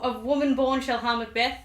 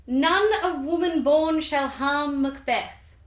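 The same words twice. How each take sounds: First: Said in the usual way. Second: Slow, higher, portentous intoning; ominous prophecy. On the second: Acted. Teller intoning the witches' last prophecy, slow and ominous.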